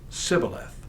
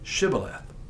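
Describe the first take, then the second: First: The word begins with a plain s sound. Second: The word begins with an sh sound. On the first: The speaker belongs to the tribe of Ephraim. The speaker calls it wrong. "the Ephraimites could not pronounce the sound sh" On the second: The speaker belongs to the tribe of Gilead. The speaker calls it right. "pronounce the word correctly"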